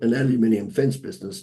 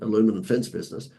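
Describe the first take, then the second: First: The first word is said with five syllables. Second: The first word is said with four syllables.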